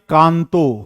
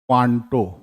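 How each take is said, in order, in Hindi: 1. शब्द की शुरुआत सादी 'kan' ध्वनि से होती है। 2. शब्द की शुरुआत गोल होंठों वाली 'kwan' ध्वनि से होती है।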